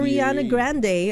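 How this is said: The name is said in an American accent. "Pagka American accent"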